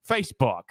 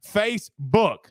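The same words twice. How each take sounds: First: Said in the usual way. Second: Facebook lifted higher, teasing; playful higher Facebook; playful repeat. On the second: Shown as a demonstration. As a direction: sing Facebook up a little, playful.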